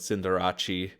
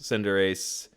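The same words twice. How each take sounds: First: The name ends with an 'ah-chay' sound. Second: The name ends with an 'ace' sound. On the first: "if you're Italian, like [name]" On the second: "One of my absolute favorites"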